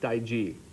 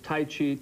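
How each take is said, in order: First: The second word starts with a j sound. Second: The second word starts with a ch sound.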